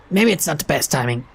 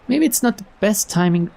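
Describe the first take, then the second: First: Said in the usual way. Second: Higher, lilting line reading; rejected first reading. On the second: Acted. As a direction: pitch the suggestion up high. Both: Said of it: "Uh, no".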